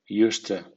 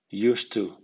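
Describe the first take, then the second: First: "used to" as "yoostə"; weak to. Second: "used to" as "yoost too"; full to. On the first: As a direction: reduce "to" to a schwa. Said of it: "con acento débil". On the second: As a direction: say "to" fully, as "too". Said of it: "con acento medio". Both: Shown as a demonstration.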